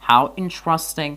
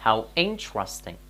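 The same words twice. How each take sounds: First: "how interesting" louder, higher and slow, like a real exclamation; exclamatory example. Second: "How interesting" said very slowly, falling at the end; slow model phrase. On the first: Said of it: "در اینجا گفتیم". ("how interesting" با هیجان و تعجب) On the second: ("How interesting" آهسته و کشیده) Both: Shown as a demonstration.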